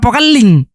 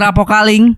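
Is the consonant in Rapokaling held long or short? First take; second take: long; short. First: The consonant is held long, with emphasis. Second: The consonant is short, without emphasis. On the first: A local is saying the name. The speaker calls it right. "padahal Rapokaling" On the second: An outsider is reading the name. The speaker calls it wrong. "Telah terjadi kebakaran di Rapokaling"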